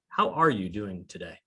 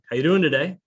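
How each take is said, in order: First: It is asked sincerely, with real interest. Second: It is asked casually, in passing.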